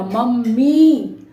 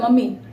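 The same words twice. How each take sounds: First: The final vowel is held long. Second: The final vowel is cut short. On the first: The speaker calls it right. "लंबी आवाज देर तक हमने मी बोला" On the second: The speaker calls it wrong. "जल्दी से नहीं बोल दिया मम्मी"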